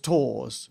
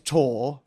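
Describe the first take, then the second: First: The name ends with an s sound. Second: The name ends without an s sound. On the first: The speaker calls it wrong. "Tors is the incorrect way of saying her name" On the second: The speaker calls it right. "Tor is the correct way of saying her name"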